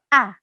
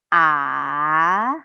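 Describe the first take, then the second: First: The pitch falls sharply and firmly. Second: The pitch dips down then rises, lengthened. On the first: "seperti orang marah atau tegas" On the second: "seperti naik gunung, di mana huruf vokalnya itu diperpanjang"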